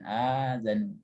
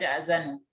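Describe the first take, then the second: First: The first vowel is long with no catch. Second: A glottal catch follows the short first vowel. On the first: The speaker calls it right. "membaca yang tepatnya" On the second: The speaker calls it wrong. "nggak boleh dibaca a'zanu"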